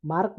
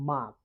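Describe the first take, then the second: First: মার্ক with the r sounded; R pronounced. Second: মার্ক with no r; silent R. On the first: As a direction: say মার্ক with r before the k. (র উচ্চারণ করে মার্ক) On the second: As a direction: say মার্ক as "maak". (র বাদ দিয়ে মার্ক) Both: Shown as a demonstration. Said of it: "আর এর উচ্চারণ হবে না".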